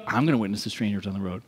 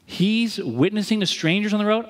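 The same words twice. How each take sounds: First: Low, quick, softer echo; mock-determined copycat, fast and much lower; copycat resolve. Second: Raised setup line; observing a model. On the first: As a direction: drop the pitch and rattle it off quietly. Copying friend, answering line. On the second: Retold or imitated. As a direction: lift it like noting what someone else does. Contrasts friend with his copying.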